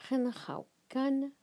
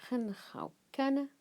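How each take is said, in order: Both takes have the same delivery.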